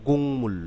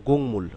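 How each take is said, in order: No difference in how they are said.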